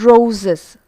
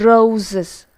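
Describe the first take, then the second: No difference in how they are said.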